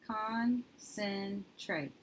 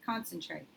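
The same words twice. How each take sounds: First: Concentrate stretched very slowly, syllable by syllable; slow sounding out. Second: Said in the usual way. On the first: Shown as a demonstration. Teacher modelling sounds of a new word, very slowly. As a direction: drag out each syllable of Concentrate. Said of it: "So let's do our sounds". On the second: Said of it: "that's a word I've heard before".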